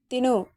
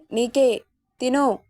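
First: Said in the usual way. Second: Slow, deliberate repeat of the order; husband repeats the order to eat, slowly and firmly; insisting again, slowly. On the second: A narrator's reading. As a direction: drag out తిను as a firm insistence. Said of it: "అన్నాడు మళ్ళీ".

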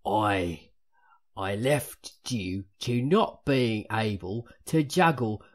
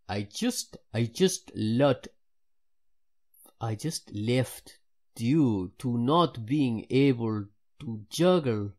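First: Loud, slow Cockney in a Michael Caine manner; hammed-up Cockney, louder and deliberate; Cockney accent. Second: Halting, stretched-out go at a Jamaican accent; badly faked Jamaican, slow and emphatic; attempted Jamaican accent. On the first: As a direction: put on a drawn-out, emphatic Cockney. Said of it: "Cockney is what it is". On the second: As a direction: try a Jamaican accent, louder and unsure. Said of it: "Maybe Jamaican. I'll try that". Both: Shown as a demonstration.

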